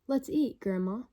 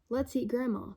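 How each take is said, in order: First: There is a short pause before 'Grandma'. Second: It runs straight on with no pause before 'Grandma'. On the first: Grandma is being invited to eat. "the second one is telling Grandma, let's eat" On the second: Grandma is the thing to be eaten. "The first one is saying to eat Grandma"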